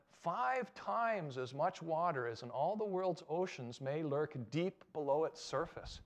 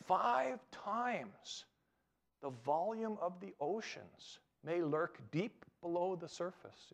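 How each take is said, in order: First: Said in the usual way. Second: "Five times" lifted high and slowed, "the volume" drawn out; stress on Five times. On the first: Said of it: "and it said". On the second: Shown as a demonstration. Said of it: "Read that again".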